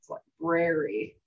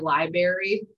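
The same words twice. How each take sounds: First: The word is said with every syllable fully pronounced. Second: The word is said in a reduced, shortened way. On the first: The speaker calls it right. "I always like over enunciate library" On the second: The speaker calls it wrong. "one of the things that just gets under my skin is when kids say"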